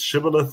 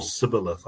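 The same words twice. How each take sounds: First: "shibboleth" starting with a sh sound; the hushing-sound version of "shibboleth"; sh pronunciation. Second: "sibboleth" starting with a plain s sound; the hissed-s version of "sibboleth"; s pronunciation. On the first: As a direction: say "shibboleth" with an opening sh. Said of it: "one way and one tribe". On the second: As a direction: say "sibboleth" with s in place of sh. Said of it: "say the word the other way". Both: Shown as a demonstration.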